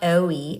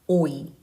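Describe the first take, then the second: First: The vowel sounds Americanized, with a glide. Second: The vowel sounds plain and pure, without a glide. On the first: The speaker calls it wrong. "Not 오이, ... Not Americanized vowels" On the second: The speaker calls it right. "but 오이"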